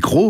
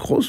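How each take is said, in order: First: The final s is silent. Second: The final s is pronounced. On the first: This is how it is said today. "aujourd'hui on dit Cros" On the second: This is how it used to be said. "il paraît qu'on disait Charles Cros"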